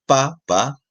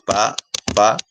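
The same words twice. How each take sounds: First: Pa, pa with the weight on the first pa; teacher's two-beat pa, pa stressed at the start; stress on first syllable. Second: Pa, pa with the weight on the second pa; teacher's two-beat pa, pa stressed at the end; stress on last syllable. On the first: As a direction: say pa, pa as papa, leaning on the opening beat. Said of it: "en la primera sílaba". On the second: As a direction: say pa, pa as papá, leaning on the ending. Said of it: "Si la fuerza de voz está en la última sílaba". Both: Shown as a demonstration.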